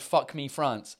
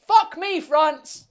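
First: Said in the usual way. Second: High, loud mock announcer yell; show-intro shout. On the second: Shown as a demonstration. Streamer tries out suggested series title, loud show-opening shout.

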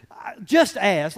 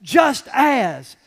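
First: JUST AS slowed and leaned on; stress on just as. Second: "Just as" loud and punched hard; stress on just as. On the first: Preacher stressing the verse words, slow heavy emphasis. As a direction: drag out just as with weight. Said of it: "those two words should be italicized". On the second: Preacher emphasizing the key verse words, loud punched stress. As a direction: hit "Just as" like bold type. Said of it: "They should be in bold". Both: Shown as a demonstration.

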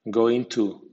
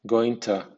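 First: "going to" with a clear "too"; full to. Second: "going to" as "goin'tə"; weak to. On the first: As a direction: say every syllable of "going to". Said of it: "con acento medio". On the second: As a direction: squeeze "going to" with a schwa. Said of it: "con acento débil". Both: Shown as a demonstration.

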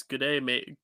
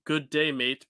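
First: Said in the usual way. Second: Australian accent. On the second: Shown as a demonstration. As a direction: try out the one Aussie phrase you know. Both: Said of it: "the only phrase I know how to say in Australian".

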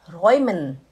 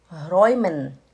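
Both takes have the same delivery.

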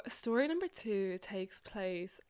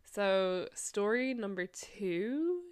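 First: Whispered. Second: Said in the usual way. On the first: Shown as a demonstration.

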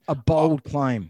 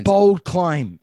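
First: Slow deadpan. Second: Bold claim. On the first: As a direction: drag it out dryly. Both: Shown as a demonstration.

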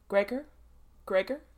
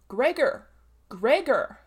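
First: Firm call through the door. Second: Loud warning shout of a name; growled warning. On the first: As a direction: knock and call his son's name. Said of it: "he called". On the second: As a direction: bellow a stern warning through the door. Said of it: "with a warning deepness in his voice". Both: A narrator's reading.

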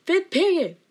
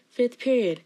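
First: Higher, louder outburst; dramatic exclamation. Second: Said in the usual way. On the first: Real, not acted. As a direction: exclaim it with theatrical exasperation. Exclaims the same class name.

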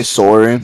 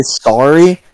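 First: Sorry with an "or", SORE-ee; Canadian sorry. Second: Sorry with an "ah", SAR-ee; American sorry. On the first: Shown as a demonstration. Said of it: "No, we say sorry". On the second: Retold or imitated. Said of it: "another thing the Americans say".

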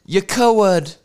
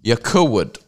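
First: High, put-on taunting voice; mock taunt. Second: Said in the usual way. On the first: Comedian taunting podcast rival in silly voice. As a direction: sneer it in a funny voice. Mock insult repeated in new voice.

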